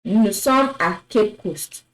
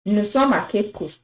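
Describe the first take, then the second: First: Nous sommes à Cape Coast read in French; French sentence. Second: Nous sommes à Cape Coast repeated in French; French sentence. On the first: Teacher reading Nous sommes à Cape Coast to students. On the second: Teacher repeating Nous sommes à Cape Coast for the class. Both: Shown as a demonstration. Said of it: "let's look at another example".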